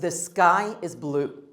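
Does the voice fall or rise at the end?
fall. The voice falls at the end. The speaker calls it right.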